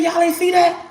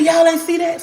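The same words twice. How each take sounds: First: Amazed disbelief. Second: High, loud astonished question; girl stunned that nobody else saw the angel, high and loud; amazed disbelief. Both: Retold or imitated. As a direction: burst out in disbelief. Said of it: "I said".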